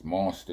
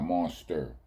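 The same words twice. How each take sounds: First: It ends in an open ah sound, no r. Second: It ends in an er sound with an r. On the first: The speaker calls it right. "It's an A" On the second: The speaker calls it wrong. "not an E and an R"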